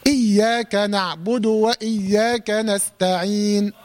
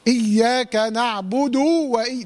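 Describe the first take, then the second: First: Slow recitation, نعبد ending in a full but short u; completed short vowel. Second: Final u of نعبد stretched into a long oo; overlong vowel. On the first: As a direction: finish the damma of نعبد without stretching it. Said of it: "بتمم الحركة". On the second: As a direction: drag نعبد out to na'budoo, as a wrong example. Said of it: "تمط في الحركة". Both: Shown as a demonstration.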